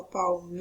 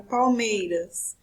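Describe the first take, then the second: First: "palmeiras" with MEI stretched out long; stress on MEI. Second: Said in the usual way. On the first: Shown as a demonstration. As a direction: hold the MEI of "palmeiras" before finishing the word. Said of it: "Qual é a sílaba mais forte da palavra". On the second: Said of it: "Qual é a sílaba mais forte".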